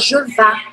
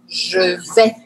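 First: The second word ends in an 'ah' vowel. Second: The second word ends in an 'eh' vowel. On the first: The speaker calls it wrong. "tem muita gente que se confunde com isso, que fala je vá. Não existe je vá" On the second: The speaker calls it right. "eu vou pronunciar isso assim, ó"

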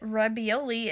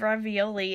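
First: The word is said with a B sound. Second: The word is said with a V sound. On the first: The speaker calls it wrong. "I said ravioli instead of ravioli" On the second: The speaker calls it right. "instead of ravioli"

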